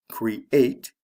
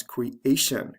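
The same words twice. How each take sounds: First: "create" stressed cre-ATE; stress on second syllable. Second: "creation" stressed cre-A-tion; stress on second syllable. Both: Shown as a demonstration. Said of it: "The stress remains on the second syllable".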